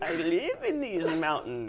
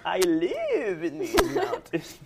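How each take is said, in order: First: Put-on old lady voice. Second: Put-on high, slow, cracking up old lady; a wobbly old crone, laughing through it. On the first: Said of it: "let me get an old lady voice going". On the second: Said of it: "Okay, Rumpelstiltskin, calm down".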